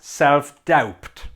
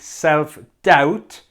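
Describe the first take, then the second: First: The B sound in doubt is pronounced. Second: The B sound in doubt is silent. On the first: The speaker calls it wrong. "and not self-doubt" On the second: The speaker calls it right. "the B is silent. So we say self-doubt"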